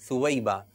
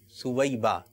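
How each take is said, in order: The two takes are said the same way.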